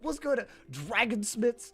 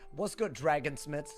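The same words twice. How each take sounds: First: The greeting is said with enthusiasm. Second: The greeting is said in a subdued way.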